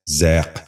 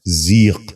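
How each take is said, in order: First: ذیق with an open "ai" vowel, "zaiq"; wrong pronunciation. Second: ذیق with a long "ee", "zeeq"; correct pronunciation. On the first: Teacher showing viewers the mistake, wrong pronunciation. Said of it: "یہ غلط تلفظ ہے". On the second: Teacher giving viewers the model, correct pronunciation. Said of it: "درست تلفظ ہے". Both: Shown as a demonstration.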